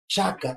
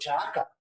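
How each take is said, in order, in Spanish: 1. Todas las vocales se mantienen cortas. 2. Una vocal se alarga. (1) "si no voy a llevar ... la diéresis, ¿cómo sería?" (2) "hay que estirar, hay que pronunciar como si fuera dos o más vocales"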